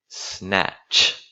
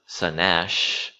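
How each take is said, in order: First: S and N are joined with no vowel between. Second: An extra vowel is inserted between S and N. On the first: The speaker calls it right. "it's snatch" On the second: The speaker calls it wrong. "it's not sanash"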